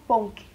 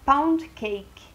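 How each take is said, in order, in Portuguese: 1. Ela é pronunciada com sons do espanhol. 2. Ela é pronunciada com sons do inglês. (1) "colocaram um som mais espanhol, ficou ponque" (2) "do inglês, que é pound cake"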